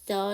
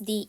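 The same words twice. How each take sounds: First: It is pronounced with a short 'duh' vowel. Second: It is pronounced with a long 'dee' vowel. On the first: "뒤에가 자음이니까 더로 발음했고요" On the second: "easiest에서 모음이기 때문에 d로 발음했죠"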